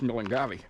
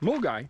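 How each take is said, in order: First: It is said as written, like 'Mill-en-gavvy'. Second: It is said with two syllables, like 'Mull-guy'. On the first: This is how the spelling reads. The speaker calls it wrong. "when you read the word, it's Millengavi" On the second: This is how the name is actually pronounced. The speaker calls it right. "it's pronounced Mulgai"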